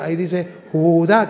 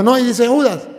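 First: "Judá" stretched, accent landing on the last syllable; "Judá" pronounced ju-DÁ; stress on final A. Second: "Judas" as JU-das, in a louder, higher imitated retort; stress on first syllable. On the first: Shown as a demonstration. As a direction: correct the reading, stressing the A in "Judá". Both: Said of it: "tiene acento en la A".

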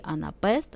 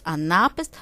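First: "анапест" stressed on the last syllable, анапЕст; stress on final syllable. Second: "анапест" stressed on the second syllable, анАпест; corrected word stress. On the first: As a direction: put the stress of "анапест" on -пест. First take, then corrects the stress. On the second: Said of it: "правильний наг-, наголос". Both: Shown as a demonstration.

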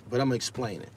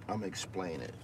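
First: Said in the usual way. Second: Much softer, lower, almost to yourself; softer repeat. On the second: Real, not acted. Repeating to the live-stream chat, much softer. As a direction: drop it under your breath.

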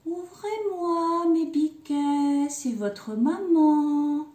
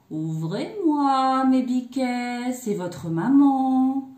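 First: High, slow, drawn-out singsong; sweetened wolf voice. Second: Slow, drawn-out, loud singsong call; wolf posing as mother. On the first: Wolf posing as mother after honey, high sweet singsong. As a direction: coax sweetly in a high, stretched-out voice. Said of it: "en prenant une voix toute douce". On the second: Wolf at the kids' door posing as mother, slow drawn-out call. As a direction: stretch each phrase like a wolf faking a mother. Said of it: "Toi, tu as la voix toute grave". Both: A narrator's reading.

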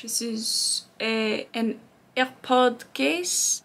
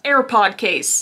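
First: Slow put-on French accent for AirPod case. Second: Said in the usual way. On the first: Shown as a demonstration. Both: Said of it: "Everything sounds better in French".

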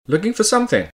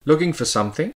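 First: High pitch, then SOMETHING drops sharply at the end; falling intonation. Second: SOMETHING rising at the end, as a question; question intonation. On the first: Intonation lesson demonstrating sentences, high fall on "something". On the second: Intonation lesson demonstrating sentences, questioning rise on "something". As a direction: ask it, lifting the pitch on "something". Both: Shown as a demonstration. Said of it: "Now listen to these sentences".

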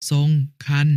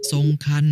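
First: ทรงคัน split as "song", pause, "khan"; syllable-by-syllable reading. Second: Said in the usual way. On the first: Shown as a demonstration. Brother showing an exception, syllable by syllable: ทรงคัน. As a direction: put a gap inside ทรงคัน. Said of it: "อ่านว่า". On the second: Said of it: "คำว่า".

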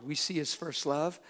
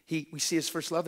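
First: Love stretched with a rising tune; slow and teaching, stress on love. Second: His pushed up and stretched; correcting himself with stress on his. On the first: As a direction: lean on the word love, slowly. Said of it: "and then he what?". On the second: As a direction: hit the word his, not love. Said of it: "and then we what?". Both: Shown as a demonstration.

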